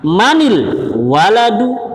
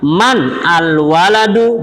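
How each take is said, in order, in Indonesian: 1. Kata-katanya disambung dengan bunyi i penyambung. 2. Kata-katanya diucapkan terpisah tanpa vokal penyambung.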